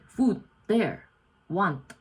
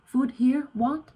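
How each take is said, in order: First: "Food there, want" with the tune falling at the end; broken English statement. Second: "Food here, want?" higher and louder, "want" rising as a question; broken English question. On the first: Vlogger demoing broken English as a statement. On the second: Vlogger demoing broken English, asked as a loud rising question. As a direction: ask it, lifting "want" up at the end. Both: Shown as a demonstration. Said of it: "even if you say".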